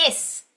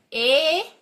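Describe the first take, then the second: First: A quick short "Is"; fast, short "Is". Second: "it's" drawn out slowly; long slow "it's"; stretched long. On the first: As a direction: clip "Is" out fast. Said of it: "And now fast". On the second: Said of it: "we're gonna make it long". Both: Shown as a demonstration.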